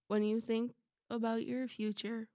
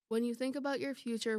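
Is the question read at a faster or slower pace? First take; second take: slower; faster. First: It is read at a slower pace. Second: It is read at a normal, quicker pace.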